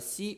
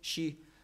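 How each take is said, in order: First: The word begins with a plain s sound. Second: The word begins with an sh sound. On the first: This is the standard form of the word. "Au lieu de si" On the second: This is the dialect form of the word. "on dit chi"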